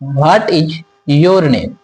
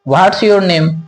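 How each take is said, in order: First: Each word is said clearly and separately. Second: 'What is' is squeezed into 'what's'. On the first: "हम लोग साफ साफ बोलते हैं व्हाट इज your name" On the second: "कुछ लोग बोलेंगे व्हाट्स योर नेम"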